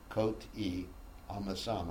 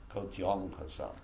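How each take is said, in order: First: The two words are said separately. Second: The two words run together as one. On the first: "when it says" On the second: "I pronounce it"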